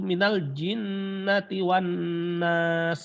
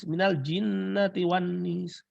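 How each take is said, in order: First: The last word has an 'a' vowel. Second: The last word has an 'i' vowel. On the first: This is the common reading. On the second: Some readers say it this way.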